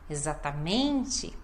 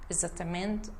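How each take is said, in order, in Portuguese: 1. A sílaba tônica é claramente enfatizada. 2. A sílaba tônica não recebe ênfase clara. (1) "dar a ênfase certa na sílaba correta" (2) "e não dá ênfase"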